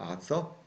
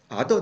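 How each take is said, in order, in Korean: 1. 가운데 자음은 s 소리예요. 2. 가운데 자음은 d 소리예요. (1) "아서라고 돼 있는데" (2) "티에이치유알이니까 아더 이렇게 발음을 해놨네요"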